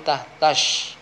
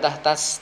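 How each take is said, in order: First: The word ends with an sh sound. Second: The word ends with a plain s sound. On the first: The speaker calls it right. "tapi tah tash" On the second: The speaker calls it wrong. "Bukan tah tas"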